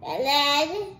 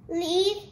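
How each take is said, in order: First: "led," said as "led" with a short e, rhyming with red; child repeats "led," with a short e; corrected led. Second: "lead," read as "leed"; child reads "lead," with a long ee; misread lead. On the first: Child repeats mother's correction: "led" with short e. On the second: Child misreads the past tense, saying "leed". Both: Shown as a demonstration.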